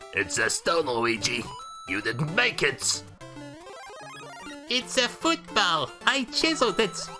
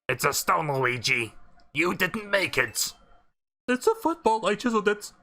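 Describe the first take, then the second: First: It is said in a Hotel Mario voice. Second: It is said in his normal voice.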